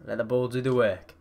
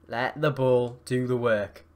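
First: Said in the usual way. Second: Measured, drawn-out coaching; slow, deliberate. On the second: Real, not acted. Gamer calming his players on the ball, slow and deliberate. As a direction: spell it out slowly, word by word. Repeats the advice slowly, deliberately.

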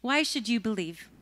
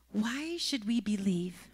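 First: Said in the usual way. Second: Hushed whisper of the question. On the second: Shown as a demonstration. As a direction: drop to a breath, no voice. Same question repeated softly.

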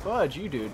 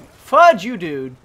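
First: Said in the usual way. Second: Furious repeat; angry shout. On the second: Real, not acted. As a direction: yell it the second time.

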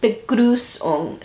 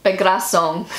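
First: Begrüßung slowly, with a long "oo"-like ü; attempted German pronunciation. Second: Begrüßung read as "be-grass-ong"; English-style pronunciation. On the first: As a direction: draw out Begrüßung, trying the German ü. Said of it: "it's totally different to that". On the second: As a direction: anglicise Begrüßung, with an open vowel for ü. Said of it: "literally pronounced in English". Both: Shown as a demonstration.

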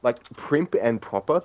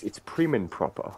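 First: "primp" said with a final p, as written on the card; "primp and proper", stressing the misspelt "primp". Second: "prim" said with no p at the end, the correct phrase; "prim and proper", clean "prim" with no p. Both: Shown as a demonstration. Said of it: "that's not the phrase".

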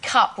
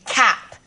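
First: Said in the usual way. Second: Put-on "cap" for cup, the old Cockney way; old Cockney vowel. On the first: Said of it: "taught by my voice coach". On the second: Shown as a demonstration. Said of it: "so cup would be cap".

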